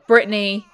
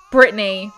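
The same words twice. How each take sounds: The two takes are said the same way.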